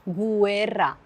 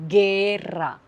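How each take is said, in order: First: A 'u' sound is heard after the g. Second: No 'u' sound is heard after the g. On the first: The speaker calls it wrong. "Je ne dis pas guerra" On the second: The speaker calls it right. "Je ne prononce pas le U"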